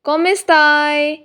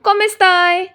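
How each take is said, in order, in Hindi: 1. दोनों शब्द अलग-अलग और धीरे बोले जाते हैं। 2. दोनों शब्द जल्दी-जल्दी एक साथ जुड़कर बोले जाते हैं। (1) "हर वर्ड को अलग अलग लिखते हैं और अलग अलग बोलते हैं" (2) "रियल लाइफ में वर्ड और सेंटेंस को फास्ट बोला जाता है"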